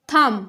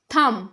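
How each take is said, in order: First: The final B sound is silent. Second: The same.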